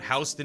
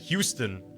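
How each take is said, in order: First: It uses the older pronunciation of the name. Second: It uses the newer pronunciation of the name. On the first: This is how the name was first said. "the original pronunciation" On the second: This is a later way of saying the name. "a newer pronunciation"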